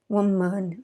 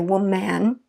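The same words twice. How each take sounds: First: The second syllable has a weak schwa vowel. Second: The second syllable has a full clear vowel. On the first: The speaker calls it right. "Woman, uh, woman" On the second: The speaker calls it wrong. "We don't say woman"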